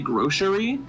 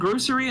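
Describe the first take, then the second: First: The middle consonant is pronounced as a sh sound. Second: The middle consonant is pronounced as an s sound. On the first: "they pronounce the C as like a sh sound" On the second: "I've always said grocery"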